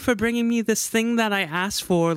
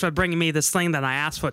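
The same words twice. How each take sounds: First: It is said in the speaker's plain accent. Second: It is said in an Australian accent.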